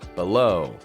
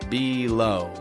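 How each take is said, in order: First: The first vowel is a weak, short sound. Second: The first vowel is a full, long sound. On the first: The speaker calls it right. "but B" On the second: The speaker calls it wrong. "I don't say it like"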